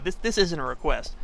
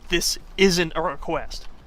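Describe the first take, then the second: First: It is said in a relaxed, reassuring tone. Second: It is said in a firm, commanding tone. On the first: Nothing is being asked of the listener. "Oh, it's okay" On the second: The listener is being ordered to do it. "You have two days to respond"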